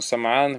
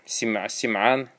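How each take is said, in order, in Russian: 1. Первая гласная — звук 'a'. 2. Первая гласная — звук 'i'.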